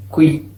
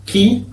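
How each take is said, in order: First: Second "qui" as kwi; sounded U. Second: First "qui" as ki; k straight into i on "qui"; silent U. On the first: Teacher showing the other syllable sound, U pronounced. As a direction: glide through w in "qui". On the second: Teacher showing the syllable sound, U silent. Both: Shown as a demonstration. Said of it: "va a tener sonido de".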